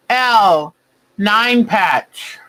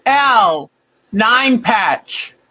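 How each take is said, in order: Both takes have the same delivery.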